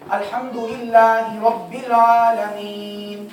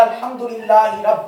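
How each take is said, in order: First: Slow, loud chant held long on the last word; sung, joined-up recitation. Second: अल्हम्दुलिल्लाहि रब cut off loudly at रब; stop after रब. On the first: Teacher reading again from behind, full chanted verse. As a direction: chant the whole verse unbroken. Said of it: "दोबारा भी पढ़े". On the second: Teacher showing breath running out, अल्हम्दुलिल्लाहि broken off at रब. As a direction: recite अल्हम्दुलिल्लाहि and halt midway on रब. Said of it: "यहाँ पे वक्फ कर दिया". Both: Shown as a demonstration.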